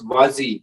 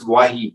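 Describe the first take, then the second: First: The middle consonant sounds like a z. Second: The middle consonant sounds like an h. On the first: This is how it looks when read from the script. "when I read it, it it feels like it's Wazi" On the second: This is how it is said in Tamil. "but in Tamil it's Wahi"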